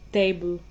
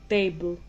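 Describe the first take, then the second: No difference in how they are said.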